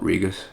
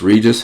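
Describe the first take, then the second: First: The last syllable sounds like 'gus'. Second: The last syllable sounds like 'gis'. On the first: This is how the speaker says it. "I just call it Regus" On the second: Some people say it this way. "Some people pronounce this Regis"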